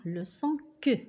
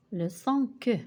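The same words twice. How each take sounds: First: Teacher models the hard K sound in "que". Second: "que" repeated as a crisp K sound. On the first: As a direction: say "que" as a clear K plus a short uh. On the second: Teacher repeating the sound "que" for pupils. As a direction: model "que" again, clearly. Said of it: "nous allons voir le son que". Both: Shown as a demonstration.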